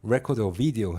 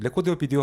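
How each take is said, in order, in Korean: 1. 영어식 R, V 발음으로 말해요. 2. 한국식 R, V 발음으로 말해요. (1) "해야지만 돼요" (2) "이 레코드와 비디오 하면 안 돼요"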